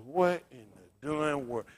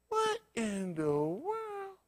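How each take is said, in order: First: Mild disbelief. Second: High, slow, drawn-out amazement; stunned disbelief. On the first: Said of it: "I said". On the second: Preacher telling the flock his own stunned disbelief. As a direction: gape at it in slow wonder. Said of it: "saying to myself". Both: Retold or imitated.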